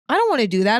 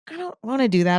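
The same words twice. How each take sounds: First: The tone is sarcastic and mocking. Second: The tone is soft and gentle. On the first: The speaker calls it wrong. "that was a bit more sarcastic" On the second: The speaker calls it right. "Subtly and gently be like"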